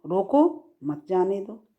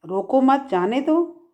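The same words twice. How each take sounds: First: "रोको" alone, short break, then "मत जाने दो"; comma after रोको. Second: "रोको मत" together, short break, then "जाने दो"; higher pitch, break after "मत" before "जाने दो"; comma after मत. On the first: Teacher contrasting two meanings, comma after "रोको". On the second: Teacher contrasting two meanings, comma after "मत". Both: Shown as a demonstration. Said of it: "इस comma से".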